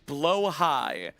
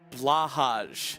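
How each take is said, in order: First: The word sounds like 'blow high'. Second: The word sounds like 'blah hahj'.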